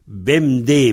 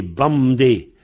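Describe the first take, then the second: First: "Bemdé" with an open "bem"; variante de prononciation. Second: "bamdé" with an A in "bam"; variante de prononciation. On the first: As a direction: say "Bemdé" with E before the M. (« Bemdé » prononcé avec un E) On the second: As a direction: open the first vowel of "bamdé" to A. (« bamdé » prononcé avec un A) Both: Shown as a demonstration. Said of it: "Il est devenu bem".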